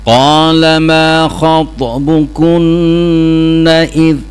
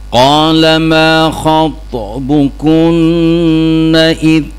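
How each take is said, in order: No difference in how they are said.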